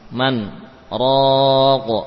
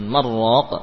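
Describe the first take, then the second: First: A brief silent stop separates the two words. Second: The two words merge with no break. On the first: The speaker calls it right. "kemudian sakt yakni berhenti diam sesaat" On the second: The speaker calls it wrong. "Jadi tidak diidghamkan, bukan marraq"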